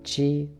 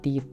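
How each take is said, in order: First: The syllable starts with a ch sound. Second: The syllable starts with a plain t sound. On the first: The speaker calls it right. "tapi ta, chi, tsu, teto" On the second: The speaker calls it wrong. "dibacanya bukan ta, ti, tu, te, to"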